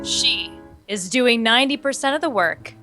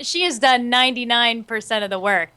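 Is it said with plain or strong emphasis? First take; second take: strong; plain. First: It is said with strong, dramatic emphasis. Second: It is said plainly, without extra emphasis.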